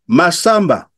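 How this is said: The name is said with native-language intonation. The child recognizes the name and answers. The speaker calls it right. "il utilise l'intonation de la langue maternelle"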